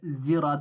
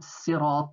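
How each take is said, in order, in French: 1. Le mot commence par un son z. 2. Le mot commence par un son s. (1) "un Z au lieu du S" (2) "d'autres qui disaient par exemple sirat"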